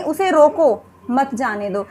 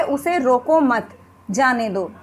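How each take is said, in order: First: Drawn-out "रोको", break, then "मत जाने दो" as one phrase; pause after रोको. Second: "रोको मत" run together, short break, then "जाने दो" lower; pause after मत. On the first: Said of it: "हम रोको के बाद विराम ले रहे हैं". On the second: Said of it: "हमने हल्का सा एक गैप लिया है". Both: Shown as a demonstration.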